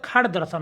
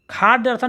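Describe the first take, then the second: First: Said in the usual way. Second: खाड़ दर्शन with a long "khaa"; wrong long vowel. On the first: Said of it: "होता है". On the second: Shown as a demonstration. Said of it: "नहीं होता". (खाड़ दर्शन, लंबा खा)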